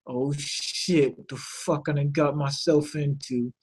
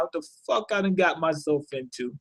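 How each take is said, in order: First: Much softer, under the breath, as if thinking it; a private panicked thought, said low and soft; inner thought. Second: Much softer, half to himself; inner thought. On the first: Bolin in his head, realizing his mistake, soft inner voice. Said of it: "But you see in his head". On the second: Bolin's thoughts replayed for viewers, soft inner voice. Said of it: "that's basically what's on his mind". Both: Retold or imitated.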